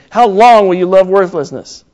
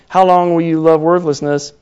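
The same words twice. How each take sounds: First: It is said emphatically, like an exclamation. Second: It is said plainly, without special emphasis.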